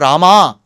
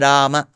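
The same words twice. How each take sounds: First: The word ends with a lengthened a. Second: The word ends with a short a. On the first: The speaker calls it wrong. "nor Rama" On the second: The speaker calls it right. "It is Rama"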